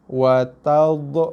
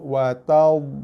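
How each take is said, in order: First: The final consonant is released with a bouncing echo. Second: The final consonant is soft, thick and not bounced. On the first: The speaker calls it wrong. "itu sifat bunyi yang salah bagi huruf dha berbaris mati" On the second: The speaker calls it right. "Dha ni kita cushionkan dia"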